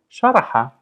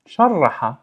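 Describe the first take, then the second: First: Said in the usual way. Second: "Sharraha" with the r held and trilled; doubled r. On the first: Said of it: "just the intervention of the stress". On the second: Shown as a demonstration. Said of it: "the intervention of the stress of the shadda".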